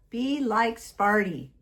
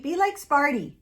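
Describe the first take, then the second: First: "Be" leaned on and slowed; slower emphatic. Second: "like" lifted high and loud; stress on like. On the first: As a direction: drag out "Be like Sparty". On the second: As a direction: punch "like" in Be like Sparty. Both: Shown as a demonstration.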